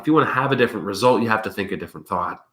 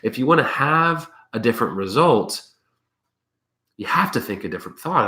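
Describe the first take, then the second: First: It is spoken at a normal, quick pace. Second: It is spoken slowly and deliberately.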